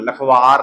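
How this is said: The two parts run together as one word. The speaker calls it wrong. "ਲੱਖ ਤੇ ਵਾਰ ਨੂੰ ਜੋੜ ਕੇ ਨਹੀਂ ਬੋਲਣਾ"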